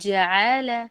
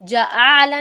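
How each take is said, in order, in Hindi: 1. पहली ध्वनि कोमलता से बोली जाती है। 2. पहली ध्वनि कठोरता से बोली जाती है। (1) "नरमी के साथ" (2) "जआला नहीं बोलना"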